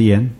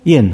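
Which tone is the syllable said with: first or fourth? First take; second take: first; fourth. First: The syllable is said with a level first tone. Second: The syllable is said with a falling fourth tone. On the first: "一声" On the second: "四声"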